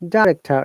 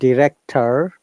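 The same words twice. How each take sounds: First: The word is said with a British pronunciation. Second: The word is said with an American pronunciation. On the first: "Director is the British sound" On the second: "director the American"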